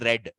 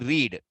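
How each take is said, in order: First: The vowel is short, like 'red'. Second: The vowel is long, like 'reed'. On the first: The action happened in the past. "Here we say read. ... Just change in how I pronounce it" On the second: The action happens in the present. "in there we say read"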